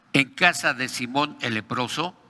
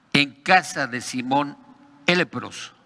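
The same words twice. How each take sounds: The two takes are said the same way.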